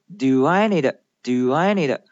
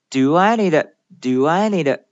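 Both takes have the same delivery.

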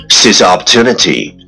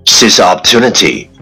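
The two takes are said the same way.

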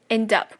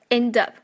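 The two takes are said the same way.

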